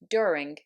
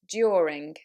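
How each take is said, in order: First: It is said without a y sound. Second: It is said with a y sound. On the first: "In American English, that would be" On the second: "in a modern R P accent, it shouldn't be dropped"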